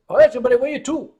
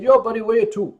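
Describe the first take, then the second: First: Put-on rattled off fast in a Newfoundland accent; imitated Newfoundland dispatcher repeating himself, fast. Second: Imitating a Newfoundland taxi dispatcher's accent; "where you to" in a thick Newfoundland accent. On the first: Dispatcher repeating to a lost tourist, fast Newfoundland accent. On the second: Taxi dispatcher answering a confused caller, Newfoundland accent. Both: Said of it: "The Newfoundland accent is a bizarre combination".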